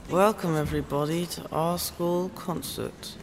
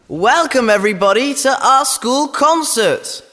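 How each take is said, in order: First: It is said quietly. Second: It is shouted very loudly.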